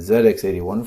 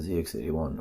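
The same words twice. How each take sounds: First: The letter Z is pronounced as zed. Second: The letter Z is pronounced as zee.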